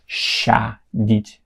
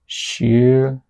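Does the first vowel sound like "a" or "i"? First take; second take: a; i. First: The first vowel sounds like a clear a. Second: The first vowel sounds like a short i. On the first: The speaker calls it wrong. "It's not shadit because it's not a anymore" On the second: The speaker calls it right. "so it will sound like uh, I again"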